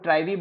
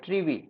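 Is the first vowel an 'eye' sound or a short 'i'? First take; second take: eye; short i. First: The first vowel is an 'eye' sound. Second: The first vowel is a short 'i' sound. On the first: "या इसको ट्राइवी बोल सकते हो" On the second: "ट्रिवी, ठीक है?"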